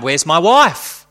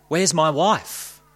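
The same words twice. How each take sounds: First: Loud slow cry; louder anguished cry; cried out. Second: Choked. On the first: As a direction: call out desperately into the dark. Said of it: "Again he cried". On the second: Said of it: "he choked". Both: Acted.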